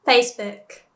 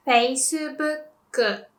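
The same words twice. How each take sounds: First: Said in the usual way. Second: "Facebook" slowly as "feisubukku"; Japanese pronunciation. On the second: Shown as a demonstration. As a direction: say "Facebook" as fei-su-buk-ku. English then Japanese brand demo.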